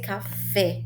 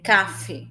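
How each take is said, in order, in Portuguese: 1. O acento está na última sílaba. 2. O acento está na primeira sílaba. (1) "mas é café" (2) "Se cá fosse mais forte, a pronúncia seria café"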